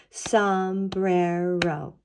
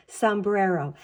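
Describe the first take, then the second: First: SOMBRERO very slowly, in three stretched beats; clapped out syllables. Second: Said in the usual way. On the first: Shown as a demonstration. Teacher clapping out a word with children, syllable by syllable. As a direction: draw out each syllable of Sombrero. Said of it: "Let's count and clap out sombrero". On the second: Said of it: "clap out sombrero one more time".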